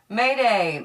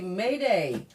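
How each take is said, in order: First: It is said loudly, with raised volume. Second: It is said at normal, quiet volume.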